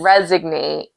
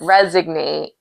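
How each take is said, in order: First: The word is said with a g sound. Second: The same.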